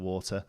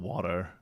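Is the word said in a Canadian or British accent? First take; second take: British; Canadian. First: It is said in a British accent. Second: It is said in a Canadian accent.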